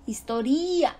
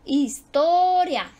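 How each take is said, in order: First: "Historia" said his-to-RÍ-a; stress moved to I. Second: "Historia" slow, loud, long on to; his-TO-ria, with a big held o for "Historia"; penultimate stress. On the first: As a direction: shift the weight in "Historia" onto the i. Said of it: "la sílaba tónica no cae ahí". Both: Shown as a demonstration.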